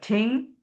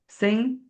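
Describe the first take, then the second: First: The word begins with a t sound. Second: The word begins with an s sound. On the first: "it would be a choice of ting" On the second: "a lot of people would say sing"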